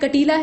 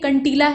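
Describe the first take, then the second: First: The word has only a light nasal sound. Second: The word has a full nasal consonant. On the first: The speaker calls it right. "हल्का सा नाक का इस्तेमाल कर रहे हैं" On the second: The speaker calls it wrong. "ऐसा तो कह नहीं रहे हैं"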